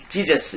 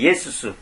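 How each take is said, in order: First: The name starts with a 'j' sound. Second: The name starts with a 'y' sound. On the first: The speaker calls it wrong. "지저스가 아니라" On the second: The speaker calls it right. "예수스입니다. 원래 발음은 정확한 것은"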